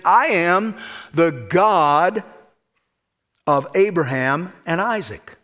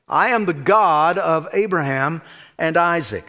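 First: I am the God of Abraham and Isaac drawn out very slowly, "I" lifted and held; slow solemn declaration. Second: Said in the usual way. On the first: Retold or imitated. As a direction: stretch each word like a divine proclamation. Quoting God's promise to Jacob.

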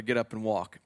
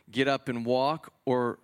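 First: Lightly voiced Jesus giving a calm command to the man; mild command. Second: Slowed, weighing question, lightly voiced Jesus; slow rhetorical question. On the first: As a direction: say it as a simple falling order, barely acted. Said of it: "Hey, hey, brother". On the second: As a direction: draw out the choice, asking the crowd. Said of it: "what's harder to say".

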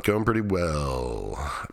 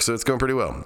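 First: Very slow, drawn out, like thinking it over; slow musing echo. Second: Said in the usual way. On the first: Real, not acted. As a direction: stretch "Going pretty well" out slowly, half to yourself. Slow, musing echo of his line.

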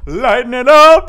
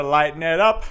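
First: 1 loud cheerful call. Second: Said in the usual way. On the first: Shown as a demonstration. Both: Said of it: "I wanna bring the mood up".

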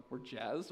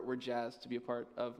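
First: "jazzed" as a rising, disbelieving question; self-questioning. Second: Said in the usual way. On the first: Real, not acted. Pastor catching his own corny word, self-questioning "jazzed?". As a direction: query "jazzed" softly, lifting the end in self-mockery.

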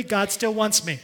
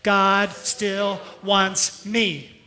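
First: "still" stressed in God still wants me. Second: "God" drawn out, whole line very slow; very slow repeat. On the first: Pastor leads the church in God still wants me. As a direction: lean on still as they join in. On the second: Pastor repeats God still wants me very slowly for the church. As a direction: savour each word slowly. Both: Shown as a demonstration. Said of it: "Would you say it with me?".

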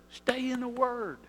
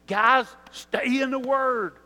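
First: Said in the usual way. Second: Slow, loud call to the men; louder exhortation, each word weighted; emphatic urging. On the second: Retold or imitated. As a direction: press the guys to stay in the Word. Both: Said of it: "he tells us every week".

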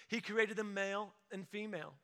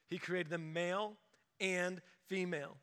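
First: Said in the usual way. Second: "male" rising, pause, then "and female" falling; male and female spaced out. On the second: Shown as a demonstration. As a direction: set "male" apart from "female" with a pause between. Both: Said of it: "That's two".

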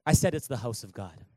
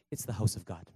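First: "I said" hit firmly, back up from the hush; firm preacher's repeat; repeated with insistence. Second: Dropped low and soft, a hushed "house of God"; hushed preacher's aside; soft delivery. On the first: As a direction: insist on it again. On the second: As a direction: let it fall low and quiet. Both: Shown as a demonstration.

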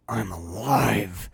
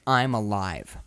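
First: Slow, mild imitation of a vehement I'm alive; a low, drawn-out hint of "alive" with grit. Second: Lower, mild imitation of a vehement I'm alive; a hint of Tim Robbins insisting on "alive". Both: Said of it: "there's a vehemence to Tim Robbins'".

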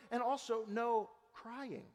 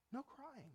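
First: Said in the usual way. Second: Almost breathed, much softer; hushed repeat of "No crying"; soft echo. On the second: Real, not acted. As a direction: drop the voice and let "No crying" linger. Soft echo of prior phrase.

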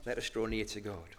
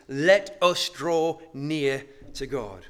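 First: "Let us draw near to God" said again quietly, much softer; hushed echo of "Let us draw near to God"; soft repeat. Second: "Let us draw near to God" slow and weighty, each word leaned on; slow, emphatic "Let us draw near to God". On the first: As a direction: let the line fall soft and low. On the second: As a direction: stress "us" and slow the whole line right down. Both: Shown as a demonstration. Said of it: "the first emphatic emphasis".

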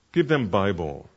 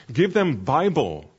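First: Said in the usual way. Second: "give them Bible" slow and high, with a ringing push on "Bible"; emphatic. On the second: Shown as a demonstration. Mentor drilling trainees about hope, emphatic slow stress on "Bible". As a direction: lean hard on "Bible", drawn out and lifted.

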